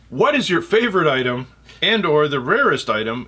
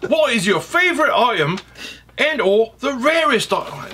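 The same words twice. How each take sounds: First: It is spoken in a Midwestern American accent. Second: It is spoken in an attempted British accent. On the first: "I'm going to do it in a, in a Midwestern accent" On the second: "I'll try to speak in a British accent"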